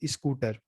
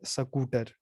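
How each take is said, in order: First: It is said in a UP-Bihar regional accent. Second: It is said in a Haryana regional accent. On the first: "उत्तर प्रदेश बिहार में जाएंगे तो" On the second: "हरियाणा में आप बोलेंगे"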